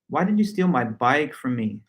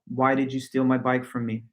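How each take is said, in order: First: The word bike carries strong stress. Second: It is said flat with no word stressed. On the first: "Now I'm adding all the stress to the word bike" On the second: "in just a flat monotone with no stress added to any of the words"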